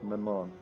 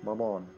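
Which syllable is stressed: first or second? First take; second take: second; second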